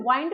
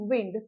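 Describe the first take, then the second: First: The vowel is a long 'eye' sound. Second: The vowel is a short 'i' sound. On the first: The speaker calls it wrong. "आप इसे वाइंड नहीं pronounce करेंगे" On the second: The speaker calls it right. "इसे आप पढ़ेंगे विंड"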